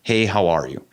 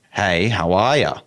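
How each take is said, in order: First: "Hey, how are you?" starting high on "Hey" and falling to low; American high-to-low tune. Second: "Hey, how are ya?" rising from low to high, a touch slow; Australian low-to-high tune. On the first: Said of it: "It goes from high to low". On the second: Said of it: "we go low to high". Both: Shown as a demonstration.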